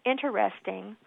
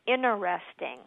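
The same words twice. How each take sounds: First: The word is said with four syllables. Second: The word is said without its first t sound. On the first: "either as four syllables" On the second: "what's not correct is interesting, where you leave out that first T"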